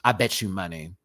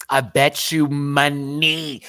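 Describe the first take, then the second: First: Said in the usual way. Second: "money" stretched out, louder and higher; slow, loud bet with a long-drawn "money"; emphatic repeat. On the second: Acted. Host betting on [name]'s reaction, slow emphatic "money".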